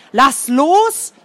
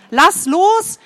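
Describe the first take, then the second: First: Mild fearful shout; fearful yell. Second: High, louder command; commanding shout. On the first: Boy scared for his friend, mild fearful yell. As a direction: yell at him to let go, scared. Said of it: "brüllte Adlerkralle voller Angst". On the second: Boy ordering his friend to let go, commanding shout. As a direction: repeat the order, sharper now. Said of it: "wiederholte er seinen Befehl". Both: A narrator's reading.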